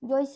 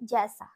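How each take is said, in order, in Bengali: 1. প্রথম স্বরধ্বনিটি 'oi'-এর মতো যৌগিক স্বর। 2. প্রথম স্বরধ্বনিটি 'e'-এর মতো সাধারণ স্বর। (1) "জৈসা হবে না" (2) "কি হবে? জ্যাসা"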